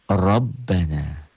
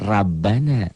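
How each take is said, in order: First: The r sound is heavy and thick. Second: The r sound is light and thin. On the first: The speaker calls it right. "Ro ini menjadi dibaca tebal, tabkhim, apabila barisnya di atas" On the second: The speaker calls it wrong. "bukan Rabbana"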